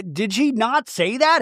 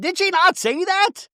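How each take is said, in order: First: Said in the usual way. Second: Very high, slow imitated yell; mock yell. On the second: Heather yelling at Lisa, very high mock yell. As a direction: yell it up high, hitting not. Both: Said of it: "Heather's yelling".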